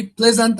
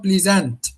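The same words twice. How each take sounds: First: "pleasant" as PLEZ-unt; first-syllable stress. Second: "pleasant" as plee-ZANT; long e in "pleasant", weight on the end; wrong second-syllable stress. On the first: Teacher giving the right stress, "pleasant" as PLEZ-unt. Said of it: "the first syllable is the highest or the loudest". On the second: Teacher rejecting the wrong version, "pleasant" as plee-ZANT. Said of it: "and not pleasant". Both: Shown as a demonstration.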